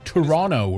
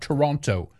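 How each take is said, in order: First: It is pronounced the Canadian way. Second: It is pronounced a non-Canadian way. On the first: The speaker calls it right. "What is it the Canadians say again?" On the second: The speaker calls it wrong. "Not Toronto"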